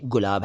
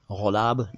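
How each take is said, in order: First: गुलाब as gulab, clean g; correct hard G. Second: गुलाब as ghulab, throaty start; wrong nukta sound. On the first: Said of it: "ये गुलाब है". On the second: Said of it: "गुलाब नहीं". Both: Shown as a demonstration.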